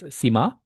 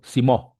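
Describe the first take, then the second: First: The word ends with an 'a' vowel. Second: The word ends with an 'o' vowel. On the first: The speaker calls it wrong. "is this sima? No" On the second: The speaker calls it right. "when it's pronounced correctly"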